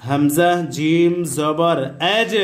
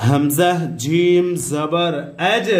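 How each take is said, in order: Both takes have the same delivery.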